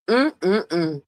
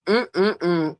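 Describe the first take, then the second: No difference in how they are said.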